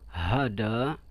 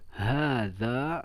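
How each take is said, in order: First: The middle consonant is a d sound. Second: The middle consonant is a voiced th sound. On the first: This is the colloquial form. "Amiyahnya ada yang mengucapkan" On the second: This is the standard form. "Contoh fusha"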